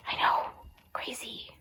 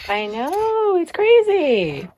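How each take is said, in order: First: Whispered I know and crazy. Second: High, drawn-out dog talk; high singsong. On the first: Whispering it back to the dog. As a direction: breathe crazy out with no voice. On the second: Talking to her dog in a high, drawn-out singsong. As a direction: stretch out crazy up high. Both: Real, not acted.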